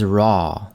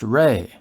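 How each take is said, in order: First: The name ends in an open 'ah' vowel. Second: The name ends in an 'ay' vowel. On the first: "I'll try to stick with Ra" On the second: "also spelled R E and pronounced Re"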